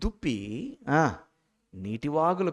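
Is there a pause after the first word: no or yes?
yes. There is a pause after the first word. The deer longs for streams of water. The speaker calls it right.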